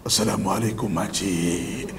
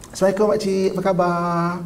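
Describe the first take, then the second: First: Low, drawn-out, spooky hello; deep slow greeting. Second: Friendly greeting. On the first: Greeting auntie so low it scares her, slow and deep. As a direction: greet slowly in a deep, creepy voice. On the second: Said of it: "orang akan nampak kita mesra". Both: Shown as a demonstration.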